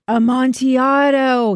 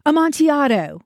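First: Long, drawn-out higher moan; slow, hammed-up moan. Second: Raised, higher-pitched cry; mild narrated shout; shouted exclamation. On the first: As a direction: wail the word slowly, stretching it out. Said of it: "he moaned". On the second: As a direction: call it out with a falling end. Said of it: "he shouted". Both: A narrator's reading.

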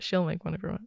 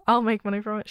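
First: She'll stressed, the rest softer; She'll said firmly as the fix, quieter. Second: I'll hit first and brighter, fast and laughing; stress on I'll. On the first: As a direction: correct yourself by leaning on She'll. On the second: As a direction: punch the word I'll, laughing, the joke is on me. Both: Shown as a demonstration.

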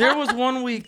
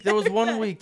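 First: High laughing start of the line. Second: Said in the usual way. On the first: Real, not acted. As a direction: begin it while cracking up. Restarting while laughing.

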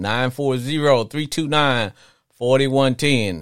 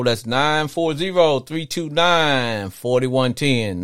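First: Repeated phone number read. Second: Each digit spaced out slowly; phone number read out slowly. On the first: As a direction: repeat the digits, steady. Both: Real, not acted. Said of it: "the number".

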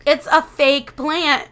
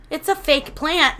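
First: Louder, slow "It's a fake plant"; exasperated retold repeat, leaning loud on "fake plant"; retold emphatic insistence. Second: Higher, matter-of-fact insistence; mildly incredulous retold correction. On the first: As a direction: spell out "fake plant" slowly and forcefully. Repeated correction after denial. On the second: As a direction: point out the obvious, first try.

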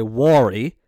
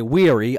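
First: "worry" said WAW-ree, for wary; own pronunciation. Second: "weary" said WEER-ee; long ee in the first syllable of "weary"; rejected pronunciation. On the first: Host defending their own way, "worry" as WAW-ree. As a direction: open "war" sound in "worry". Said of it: "I say". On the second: Host who has been rinsed for it, "weary" as WEER-ee. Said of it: "I don't say". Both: Shown as a demonstration.

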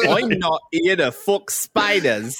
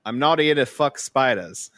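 First: Slow, high, badly faked Aussie; exaggerated Australian attempt, drawn out and pitched up; way-off Australian accent. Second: Careful, fairly convincing Aussie imitation; mild Australian accent attempt that wobbles at the end. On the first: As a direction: ham up a terrible Australian accent. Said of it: "There you're way off". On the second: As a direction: try an Australian accent, slipping on SPIDERS. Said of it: "that started pretty good".

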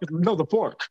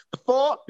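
First: Said in the usual way. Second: FORK as "faw", asked on a raised pitch; mock New Orleans "fork" with no K; puzzled echo of New Orleans "fork"; New Orleans slang. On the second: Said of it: "New Orleans slang after a while becomes".

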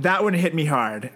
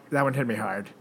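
First: Said in the usual way. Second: Soft, sorrowful repeat; quietly sad. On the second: Real, not acted. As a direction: let it sink, softer.

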